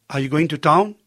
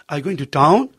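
The two takes are said the same way.

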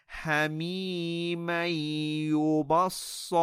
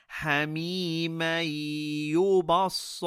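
Both takes have the same delivery.

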